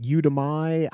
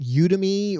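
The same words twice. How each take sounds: First: Udemy said YOU-duh-MY; Udemy ending in -my. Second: Udemy said YOU-duh-mee; Udemy ending in -mee. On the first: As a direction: end Udemy like the word "my". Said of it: "you would think that would be my". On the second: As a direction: end Udemy on a "mee" sound. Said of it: "don't even know how to pronounce that". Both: Shown as a demonstration.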